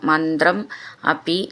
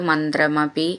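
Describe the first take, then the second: First: The two words are said as separate words. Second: The two words are run together as one.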